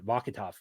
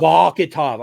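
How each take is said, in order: First: Said in the usual way. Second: Vakhitov said louder in a mock Russian accent; Russian accent attempt. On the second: Shown as a demonstration. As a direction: punch out Vakhitov like a Russian would. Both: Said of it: "I was supposed to say it like I'm Russian".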